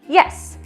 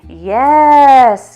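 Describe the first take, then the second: First: The word is short, quick and sharp. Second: The word is drawn out with emotion. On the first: It marks the exact moment of correct behaviour. The speaker calls it right. "It's just yes, because it's got to stand out ... a quick thing" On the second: It sounds like praise rather than a marker. The speaker calls it wrong. "You don't say yes, yes, that's it. That would be more like praise"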